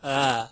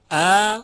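First: ا eased, without the sharp catch; slack, gentle onset on ا; soft flowing hamza. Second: ا loud and high with a firm glottal catch; strong, tight hamza on ا; full hard hamza. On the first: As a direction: release ا loosely and smoothly. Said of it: "صدای دوم صدای نرم و روان". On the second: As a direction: attack ا sharply. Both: Shown as a demonstration.

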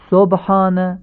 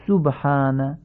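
First: "سبحان" as sobhana, with an open o; higher, slowly show "سبحان" starting so-; non-standard damma. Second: "سبحان" as subhana, with pure short u; correct Arabic damma. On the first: Teacher shows learners the faulty word, non-standard damma. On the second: Teacher corrects the word for learners, correct Arabic damma. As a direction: slowly say "سبحان" starting su-, not so-. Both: Shown as a demonstration. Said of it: "تمام این ضمه ها باید فصیح تلفظ بشن".

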